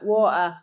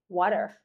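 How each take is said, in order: First: It is said in an Australian accent. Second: It is said in an American accent. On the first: "Australian water" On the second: "like an American might say water"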